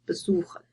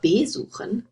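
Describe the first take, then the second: First: The stress is on the second syllable. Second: The stress is on the first syllable. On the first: The speaker calls it right. "you would say" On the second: The speaker calls it wrong. "you wouldn't say"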